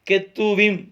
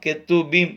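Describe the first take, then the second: First: The consonant before the last vowel is v. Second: The consonant before the last vowel is b. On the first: "கெத்தூவீம் என்றும் சொல்லலாம்" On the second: "கெத்தூபீம் என்றும் சொல்லலாம்"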